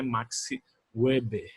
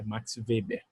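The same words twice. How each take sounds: First: Weber begins with a W sound. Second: Weber begins with a V sound. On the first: It sounds as if the man were American. The speaker calls it wrong. "não é Max Weber, tá? Como se ele fosse americano" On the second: It sounds German, as the man was. The speaker calls it right. "o nome do W dele é com som de V"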